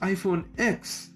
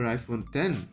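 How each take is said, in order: First: The last word is said as the letter ex. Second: The last word is said as the number ten. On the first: "everybody around me just pronounces it as X" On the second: "tried to pronounce it as iPhone ten"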